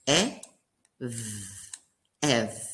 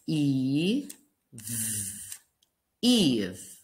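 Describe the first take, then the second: First: "ev" with a short clipped e. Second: "Eve" with a long stretched ee. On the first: Teacher sounding "ev" before magic E, short e. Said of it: "read the second word together". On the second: Teacher showing magic E makes "Eve", long e. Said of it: "If we add the magic E at the end". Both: Shown as a demonstration.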